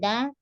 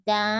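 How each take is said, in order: First: The syllable is said with nasal resonance. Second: The syllable is said without nasal resonance. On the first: The speaker calls it wrong. "ini kan danya udah siap dengung" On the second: The speaker calls it right. "jadi da bukan da"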